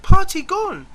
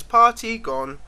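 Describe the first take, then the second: First: Much higher, louder mock child voice; squeaky imitation of the French lad; French boy. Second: Put-on lightly higher child voice; a hint of the French boy. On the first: French boy waking him, mock child voice. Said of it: "woke me and said". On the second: The French boy's only English, mild child voice. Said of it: "the only word in English he could say".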